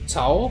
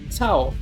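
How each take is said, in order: First: The syllable is said on a rising tone. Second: The syllable is said on a low tone. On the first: "with a rising tone" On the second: "with a lower tone"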